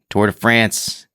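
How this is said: It is said with an American-style pronunciation. "that's us Americans"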